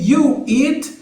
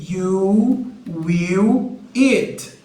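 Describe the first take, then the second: First: Said in the usual way. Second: You will eat stretched out slowly; slow careful model phrase. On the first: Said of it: "em vez de ser". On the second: Shown as a demonstration. Teacher slowly modelling you will eat for students. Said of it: "vai ser you will eat".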